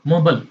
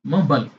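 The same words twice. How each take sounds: First: It is said in an American accent. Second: The same.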